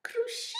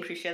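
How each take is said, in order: First: "Crucio" shot up very high at the end; sudden high-pitched "Crucio"; Voldemort. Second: Said in the usual way. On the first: Acted. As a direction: squeal the curse "Crucio" in villain voice. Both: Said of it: "I just like saying Crucio that way".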